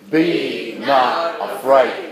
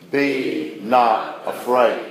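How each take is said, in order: First: The phrase is said at a louder volume. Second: The phrase is said at a normal, quieter volume.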